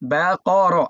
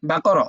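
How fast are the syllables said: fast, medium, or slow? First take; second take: medium; fast. First: The syllables are said somewhat faster. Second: The syllables are said quickly, run together. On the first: "একটু দ্রুত বলেন" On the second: "আর একটু দ্রুত"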